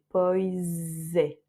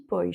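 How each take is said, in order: First: The s sounds like z, linked. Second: The final s sounds like sh. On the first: The word is followed by a vowel. "un z et non pas un ch" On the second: The word stands alone. "pois avec che à la fin"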